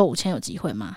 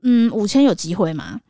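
First: Softer, lower, timid ask; meek repeat. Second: Slow, tentative ask; hopeful haggling. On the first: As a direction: shrink as you ask again. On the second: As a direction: test the waters gently. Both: Retold or imitated. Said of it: "我就说".

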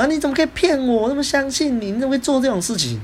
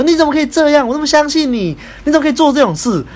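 First: Agitated. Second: High, loud furious outburst, mimicking the friend; angry scolding. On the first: Retold or imitated. Friend A still upset, repeating the accusation, high agitated voice. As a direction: mimic the friend still worked up, voice high but level. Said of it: "他就还是很激动". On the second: Friend A scolding me on the phone for betraying trust, high loud angry shout. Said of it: "很气愤的骂我说".

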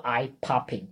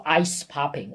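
First: EYE popping, with no s after eye; correct singular form. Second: ICE popping, with an s sound closing the first word; wrong plural form. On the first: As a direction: say "eye popping", first word open-ended. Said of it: "而是你要说". (正确示范，eye 不带 S 音) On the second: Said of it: "所以你不要说". (错误示范，ice 带 S 音) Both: Shown as a demonstration.

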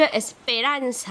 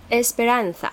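First: 把Esperanza的重音放在第三个音节，拖长念; 学朋友故意念错Esperanza，中间重读; 模仿朋友念名字. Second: Esperanza按西语念，重音轻放在后面; 清楚示范Esperanza的西语原音; 正确念法. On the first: Retold or imitated. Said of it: "他都会把重音放在第三个音节". (朋友捉弄时那样念Esperanza) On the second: Shown as a demonstration. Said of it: "其实它的重音应该怎么发". (示范Esperanza的正确西语念法)

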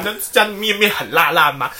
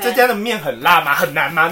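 First: Put-on cutesy doubled-word baby talk. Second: Said in the usual way. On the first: Shown as a demonstration.

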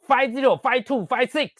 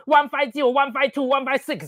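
First: 念 five zero、five two、five six; 报两位数，不带 one; 两位数读法. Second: 念 one five zero、one five two、one five six; 逐位报出三位数; 三位数读法. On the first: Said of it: "谁叫你念five zero". (照上次教训只念两位数) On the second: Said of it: "明明就三位数字". (照CDU上三位数念) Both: Retold or imitated.

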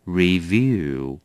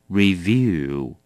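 Both takes have the same delivery.

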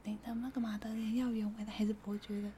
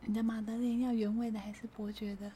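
First: Unvoiced timid cashier whisper, repeated; tiny whisper. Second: Slightly louder. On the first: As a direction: whisper it again, barely there. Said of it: "他讲话就是这么小声". (重复一遍的细声耳语) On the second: Retold or imitated. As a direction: still very soft, a bit clearer. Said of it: "我听不到". (稍微大声一点但仍很小声)

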